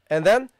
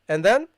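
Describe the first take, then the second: Both takes have the same delivery.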